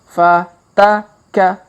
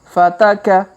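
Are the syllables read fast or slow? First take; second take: slow; fast. First: The syllables are read slowly and separately. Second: The syllables are read quickly and joined. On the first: "Kita baca pelan-pelan" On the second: "Kalau dipercepat"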